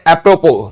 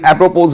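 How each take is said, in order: First: The word ends without a final s sound. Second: The word ends with a final s sound. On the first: The speaker calls it right. "बाद में एस है लेकिन एप्रोपोज नहीं बोला जाता" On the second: The speaker calls it wrong. "एप्रोपोज नहीं बोला जाता"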